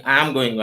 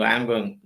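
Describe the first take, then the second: First: "I am" said in full, uncontracted; full form. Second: "I am" run together as "I'm"; contracted form. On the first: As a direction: give "I am going" both words, "I" then "am". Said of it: "Instead of saying". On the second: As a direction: shorten "I am going" to "I'm going". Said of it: "Contracted words or shortened words". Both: Shown as a demonstration.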